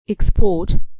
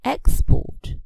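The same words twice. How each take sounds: First: The stress is on the second syllable. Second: The stress is on the first syllable. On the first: It is used as a verb. "for verbs we stress the second syllable" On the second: It is used as a noun. "for nouns the stress falls on the first syllable"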